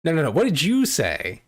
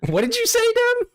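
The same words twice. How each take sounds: First: Demanding. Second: Very high, loud stunned squeal; shocked shriek. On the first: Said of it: "Oh, what did I say?". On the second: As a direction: shriek in disbelief at what you heard. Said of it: "Oh, they said". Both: Real, not acted.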